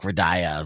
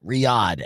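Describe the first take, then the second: First: The name is said as 'Radaya'. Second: The name is said as 'Riyadh'. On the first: The speaker calls it wrong. "I grossly mispronounced" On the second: The speaker calls it right. "is uh, Riyadh"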